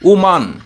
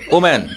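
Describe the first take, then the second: First: The second vowel sounds like 'a' in 'father'. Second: The second vowel sounds like 'a' in 'man'. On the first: The speaker calls it right. "সঠিক উচ্চারণটা হবে ওমান" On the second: The speaker calls it wrong. "আমরা বলি ওম্যান, যেটা সঠিক নয়"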